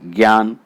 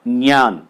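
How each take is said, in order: First: It begins with a g sound joined to y. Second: It begins with a j sound joined to ny. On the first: The speaker calls it wrong. "अब लोग इसे बोलते हैं ज्ञान" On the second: The speaker calls it right. "शुद्ध उच्चारण है वो है ज्ञान"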